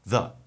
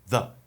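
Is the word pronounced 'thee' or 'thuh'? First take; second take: thuh; thuh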